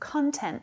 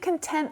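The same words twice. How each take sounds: First: The stress is on the first syllable. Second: The stress is on the second syllable. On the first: Material that appears online. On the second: Happy and satisfied.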